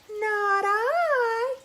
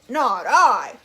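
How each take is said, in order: First: It is said in a whiny cat voice. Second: It is said in a gruff dog voice.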